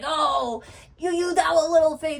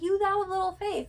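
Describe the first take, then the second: First: It sounds scolding and shaming. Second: It sounds warm and encouraging.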